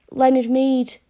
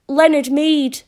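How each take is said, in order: First: Said in the usual way. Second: Name repeated louder and higher, after "Speak up.". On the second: A narrator's reading. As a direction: say "Leonard Mead" again louder and higher. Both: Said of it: "Speak up".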